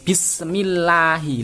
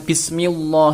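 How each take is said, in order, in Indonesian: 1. Bunyi 'lah' itu tipis. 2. Bunyi 'lah' itu tebal. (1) "Harus dibaca tipis" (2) "nggak boleh baca bismillah, itu salah"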